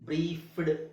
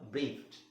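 First: The word ends with a d sound. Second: The word ends with a t sound. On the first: The speaker calls it wrong. "ಬ್ರೀಫ್ಡ್ ಅಂತ ಬರಲ್ಲ" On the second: The speaker calls it right. "F ಆದ್ಮೇಲೆ ಫಿಟ್ ಅಂತ ಬರಬೇಕು"

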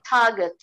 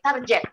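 First: It is said with an English-style pronunciation. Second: It is said with an Indonesian-style pronunciation. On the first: The speaker calls it right. "actually, it should be target" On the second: The speaker calls it wrong. "Indonesian people say target"

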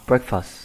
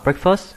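First: The stress is on the first syllable. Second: The stress is on the second syllable. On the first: The speaker calls it right. "Chúng ta có trọng âm số 1 breakfast" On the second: The speaker calls it wrong. "Chúng ta không đọc là breakfast"

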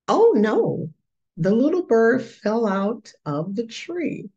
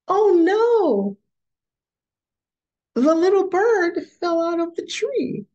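First: The sentence is read in a flat voice. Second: The sentence is read in an excited voice. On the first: The speaker calls it wrong. "What is missing here?" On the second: The speaker calls it right. "that sounds like excitement in that story"

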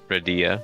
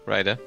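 First: The name ends in ee-a, like Lydia. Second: The name is said without an ee-a ending. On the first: "I mean, you could do it" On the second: "No, Ryda"

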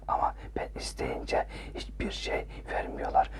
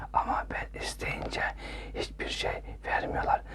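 Both takes have the same delivery.

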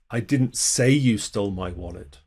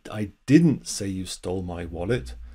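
First: The stress falls on the word 'say'. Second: The stress falls on the word 'didn't'. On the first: The speaker thinks it but never said it. "You did, I just never said it" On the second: The speaker firmly denies saying it. "that's just emphasizing the negative"

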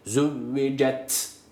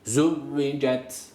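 First: The final t is pressed hard and exaggerated. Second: The final t is closed lightly without extra force. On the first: The speaker calls it wrong. "Çok fazla baskı yapmıyoruz. Yani şöyle değil. ... Bu çok fazla olur, mübalağalı olur" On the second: The speaker calls it right. "Sadece normal cezim haliyle okuyoruz"

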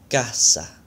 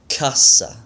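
First: The first consonant has no puff of air. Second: The first consonant has a puff of air. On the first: The speaker calls it right. "the true Spanish pronunciation" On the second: The speaker calls it wrong. "my gringo pronunciation"

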